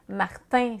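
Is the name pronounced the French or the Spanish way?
French. The name ends in a French nasal vowel. The speaker calls it wrong. "ça sonne très peu euh, hispanique"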